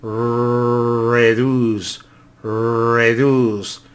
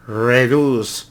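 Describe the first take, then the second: First: "Reduce" with a Spanish tapped r; "reduce" Spanish style, tapped r. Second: "reduce" with an American r; English r. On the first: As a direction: say "reduce" with the tongue tapping the r. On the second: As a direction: curl the tongue back for the r in "reduce". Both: Shown as a demonstration. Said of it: "Ellos la rasgan poquito".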